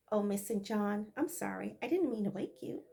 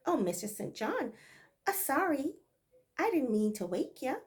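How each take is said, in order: First: Said in the usual way. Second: Light Bajan dialect apology; a hint of Barbados speech, apologetic; Bajan accent. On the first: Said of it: "in plain English". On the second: Maid apologizing to her mistress in Bajan dialect. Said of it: "this is Bajan dialect".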